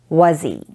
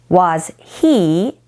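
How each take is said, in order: First: The H sound in he is dropped. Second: The H sound in he is pronounced.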